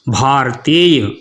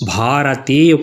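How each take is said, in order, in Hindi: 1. 'ra' को बिना स्वर के आधा बोला जाता है। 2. 'ra' को स्वर के साथ पूरा बोला जाता है। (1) "रा है उसको आधा ही पढ़ना जरूरी है" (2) "वहाँ रोज गलती कर बैठते हैं आप"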